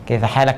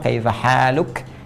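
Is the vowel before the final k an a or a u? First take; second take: a; u. First: The vowel before the final k is a. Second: The vowel before the final k is u. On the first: It is casual everyday speech. "Ini yang slang ya" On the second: It is the correct formal form. "kalau fasihnya gunakan dhammah"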